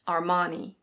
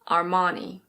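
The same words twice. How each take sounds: First: It is said with an American pronunciation, R sounded. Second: It is said with an American pronunciation, R sounded.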